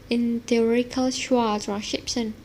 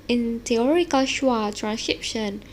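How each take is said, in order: The two takes are said the same way.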